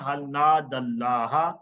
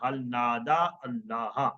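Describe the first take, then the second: First: The words are linked together into one flow. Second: The words are said separately, with a full vowel.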